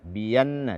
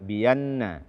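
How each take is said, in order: No difference in how they are said.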